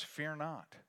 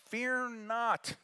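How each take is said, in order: First: Said in the usual way. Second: Much higher second take; raised proclamation. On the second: Shown as a demonstration. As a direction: lift it up like the angel's call.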